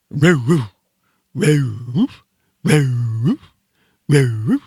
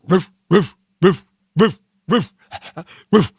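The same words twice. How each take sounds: First: Southern-accented dog bark, drawn out with a rising end; North Carolina retriever bark. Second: Short, sharp barked roofs; dog bark. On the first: Host imitating a North Carolina golden retriever, southern dog bark. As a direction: bark with a Carolina drawl, swooping up. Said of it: "golden retrievers from North Carolina bark like this". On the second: Host showing how dogs bark, short dog barks. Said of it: "you know how dogs bark". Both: Shown as a demonstration.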